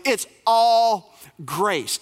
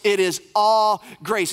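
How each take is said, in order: First: Slow, stressed ALL, drawn out; slow, deliberate all grace; slow emphatic. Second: Slow it is all grace, weight on all; deliberate slow repeat; slow emphatic restatement. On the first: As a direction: lean on all and let it land. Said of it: "preacher stresses repeated phrase". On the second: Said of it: "repeats with is". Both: Real, not acted.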